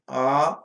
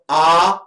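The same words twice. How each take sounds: First: The vowel is said on a low pitch. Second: The vowel is said on a high pitch. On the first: "Nichair Anudatah" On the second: "Uchchai Udatah"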